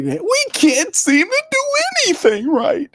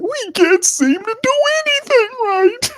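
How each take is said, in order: First: Carolina Panthers fan impression. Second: Very high, whining falsetto moan; Carolina Panthers fan impression. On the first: Streamer mocking a Carolina fan, whiny high moan. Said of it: "that's my impersonation of a Carolina Panther supporter". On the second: Streamer imitating Panthers fans, high falsetto whine. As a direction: wail it like a defeated fan. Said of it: "That's what they're saying".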